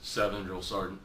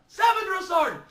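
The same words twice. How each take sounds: First: It is said quietly and timidly. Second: It is said loudly and forcefully.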